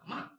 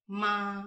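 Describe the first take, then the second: First: The pitch falls sharply from high to low. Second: The pitch stays high and level.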